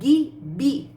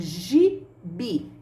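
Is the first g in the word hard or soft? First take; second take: hard; soft. First: The first g is a hard 'gui' sound. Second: The first g is a soft 'gi' sound. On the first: The speaker calls it wrong. "forma o som do gui, gui. Eu falo gibi. Não, não é mesmo?" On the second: The speaker calls it right. "Eu falo gibi, gi, gi"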